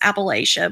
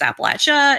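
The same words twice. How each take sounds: First: It is said the formal, textbook way. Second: It is said the way locals say it. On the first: This is the technically proper form. "technically, I think it's pronounced or properly pronounced Appalachia" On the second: This is how people from the region say it. "nobody who actually lives in Appalachia pronounces it Appalachia. It's Appalachia"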